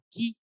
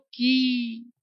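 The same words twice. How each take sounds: First: The final vowel is short. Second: The final vowel is long. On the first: "छोटा ई लगाया तो" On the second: "बड़ी ई लगा दिया तो"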